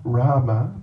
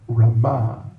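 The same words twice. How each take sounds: First: The stress is on the first syllable. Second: The stress is on the last syllable. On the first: The speaker calls it wrong. "Not Rama" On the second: The speaker calls it right. "The emphasis on the last syllable"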